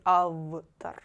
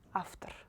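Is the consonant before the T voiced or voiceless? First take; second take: voiced; voiceless. First: The consonant before T is a voiced V. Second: The consonant before T is a voiceless F. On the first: The speaker calls it wrong. "We don't say after" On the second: The speaker calls it right. "you read V like F"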